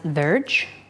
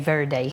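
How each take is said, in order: First: The d is said like a j sound. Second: The d is said as a plain d. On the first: This is the Portuguese way. "in Portuguese, you would pronounce it verge" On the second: This is the Spanish way. "so I will say verde, more Spanish"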